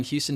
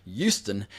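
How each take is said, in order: First: Said in the usual way. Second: "Houston" with the H dropped, like YOU-ston; drawn-out "Houston" starting on a Y sound; old boss's pronunciation. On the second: Retold or imitated. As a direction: say "Houston" as YOO-stun, slowly. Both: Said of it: "as my old boss used to say".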